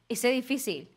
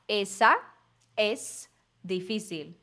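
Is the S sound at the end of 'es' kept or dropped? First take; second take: dropped; kept. First: The S in the middle is dropped. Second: The S in the middle is fully pronounced. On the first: The speaker sounds fluent and natural. "E ele já corta o S em alguns momentos" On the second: The speaker is a beginner. "Alguém que estaria no começo ia ia falar"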